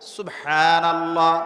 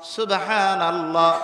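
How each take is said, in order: Both takes have the same delivery.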